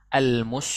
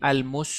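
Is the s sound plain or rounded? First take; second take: plain; rounded. First: The s is said with unrounded lips. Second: The s is said thick with rounded lips. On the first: The speaker calls it right. "melafalkan sin itu tidak monyong" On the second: The speaker calls it wrong. "jangan melafalkan; sinnya jadi tebal"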